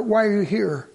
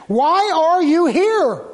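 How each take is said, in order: First: Said in the usual way. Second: Loud, high, drawn-out demand; preacher's raised, slow challenge; forceful challenge. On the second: Real, not acted. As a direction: hammer each word slowly at the crowd. Challenges congregation with the question.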